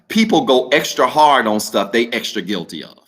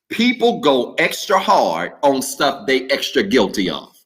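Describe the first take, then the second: First: It is said at normal speed. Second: It is said slowly.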